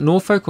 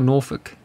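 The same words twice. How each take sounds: First: Norfolk said as "Nor-folk"; full second syllable. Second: Norfolk said as "Nor-fuk"; reduced second syllable. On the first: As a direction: say Norfolk with a clear "oak" sound in the ending. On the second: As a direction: say Norfolk with a short, weak schwa in the ending. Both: Shown as a demonstration. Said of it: "Is that how you pronounce it?".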